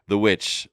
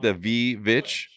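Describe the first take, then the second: First: The word starts with a W sound. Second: The word starts with a V sound. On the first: The speaker calls it right. "it's a W" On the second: The speaker calls it wrong. "Is that is that how you say it?"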